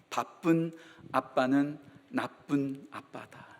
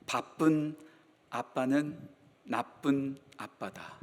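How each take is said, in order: First: Slow and soft, word by word; slow soft repeat. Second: Each word set apart, slow and soft; slow quiet saying. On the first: Pastor repeating his motto to the congregation, slow and soft. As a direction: repeat it gently so it sinks in. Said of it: "repeat of the saying". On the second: Pastor quoting his favorite saying, slow and soft. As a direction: let the motto land slowly, softly. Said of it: "제가 자주 하는 말 가운데 이런 말이 있죠". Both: Shown as a demonstration.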